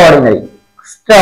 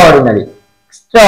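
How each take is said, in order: Both takes have the same delivery.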